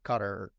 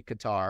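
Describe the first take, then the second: First: Qatar stressed on the first syllable, like "cutter"; Qatar with a short, reduced last syllable; alternative pronunciation. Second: Qatar stressed on the second syllable, kuh-TAR; Qatar with a long, stressed final "tar"; standard English pronunciation. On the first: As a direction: say Qatar as CUT-er. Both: Shown as a demonstration. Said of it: "however you wanna say it".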